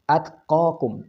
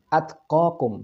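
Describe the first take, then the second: No difference in how they are said.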